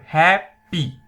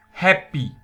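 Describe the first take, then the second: First: HAPPY split as hap... py, loud; "happy" with a gap between syllables. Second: HAPPY said whole and firmly; "happy" clear and unbroken; clear model word. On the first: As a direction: break "happy" into two beats. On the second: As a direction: enunciate "happy" as one word. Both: Shown as a demonstration. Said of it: "two syllable".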